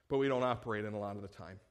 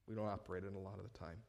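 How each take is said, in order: First: Said in the usual way. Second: Quiet aside. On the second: Shown as a demonstration.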